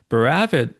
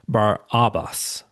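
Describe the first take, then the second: First: The name runs together as one word. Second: The name is split into two separate parts.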